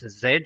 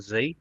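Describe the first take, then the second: First: The letter is said the British way, zed. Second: The letter is said the American way, zee.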